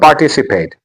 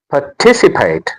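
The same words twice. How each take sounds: First: The stress falls on another syllable. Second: The stress falls on the 'ti' syllable. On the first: The speaker calls it wrong. "It is not participate" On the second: The speaker calls it right. "The stress is on T"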